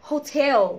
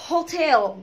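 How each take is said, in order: The two takes are said the same way.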